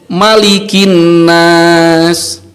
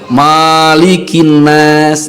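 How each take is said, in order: First: The first vowel of malikin is kept short. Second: The first vowel of malikin is drawn out long. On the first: The speaker calls it right. "dibaca qosor, dibaca pendek" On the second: The speaker calls it wrong.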